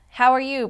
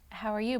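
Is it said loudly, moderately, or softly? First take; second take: loudly; moderately. First: It is said very loudly. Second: It is said at a moderate volume.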